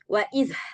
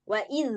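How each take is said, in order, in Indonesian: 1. Konsonan akhirnya dilepas dengan hembusan napas yang terdengar. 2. Konsonan akhirnya diucapkan biasa saja tanpa hembusan napas tambahan. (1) "bukan wa iz, kan nggak gitu" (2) "Wa iz biasa aja"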